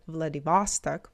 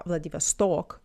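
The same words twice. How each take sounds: First: Vladivostok stressed in the middle, on "VOS"; English pronunciation. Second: Vladivostok with stress on the final "stok"; Russian pronunciation. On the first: Retold or imitated. Teacher imitates how the girl repeated it, middle stressed. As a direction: say Vladivostok the American way, open "vahs" stressed. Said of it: "versus she repeated it". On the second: Shown as a demonstration. Teacher shows how he said it, stressed on last O. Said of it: "the last O".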